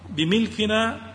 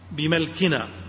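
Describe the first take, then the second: First: The m is followed by an i vowel. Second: The m is followed by an a vowel. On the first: By owning the thing. "وأما الكسر فهو بمعنى ملك الشيء" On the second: By our own power and capacity. "بفتح الميم"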